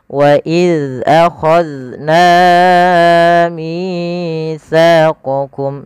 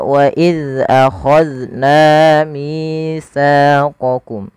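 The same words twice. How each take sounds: First: The long vowels are held unequally long. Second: The long vowels are held equally long. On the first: The speaker calls it wrong. "Sanya lebih pendek. Nah, tapi yang tadi na dan mi terlalu panjang" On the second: The speaker calls it right. "wajib dipanjangkan dua harakat"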